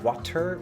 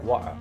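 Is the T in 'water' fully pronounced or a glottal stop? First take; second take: fully pronounced; glottal stop. First: The T is clearly pronounced. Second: The T becomes a glottal stop. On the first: "Did you really enunciate that T like water" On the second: "did you pronounce it as a glottal stop like wa"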